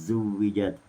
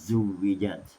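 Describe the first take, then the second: Both takes have the same delivery.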